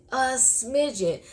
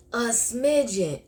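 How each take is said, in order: Both takes have the same delivery.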